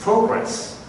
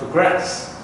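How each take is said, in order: First: The stress is on the first syllable. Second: The stress is on the second syllable. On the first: It is used as a noun. "If it is a noun" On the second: It is used as a verb. "we put the stress on the second syllable"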